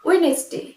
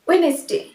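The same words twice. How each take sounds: No difference in how they are said.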